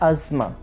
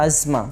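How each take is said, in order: The two takes are said the same way.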